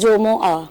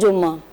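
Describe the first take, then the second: First: A single m is followed by a u vowel. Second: The m is doubled, with no vowel after it. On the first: It is a special day set apart for worship. "असल pronunciation क्या है ... जीम पर भी पेश है और मीम पर भी पेश है" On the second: It is just an ordinary day of the week. "आम में जो गुफ्तगू की जाती है वो कहा जाता है"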